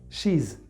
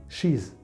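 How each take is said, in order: No difference in how they are said.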